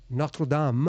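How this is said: It is said with a French pronunciation.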